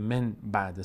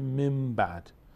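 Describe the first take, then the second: First: The sound before the b is n. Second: The sound before the b is m. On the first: The speaker calls it wrong. "نمیتونیم بگیم من بعد سخته" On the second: The speaker calls it right. "به جای نون میم تلفظ میکنه"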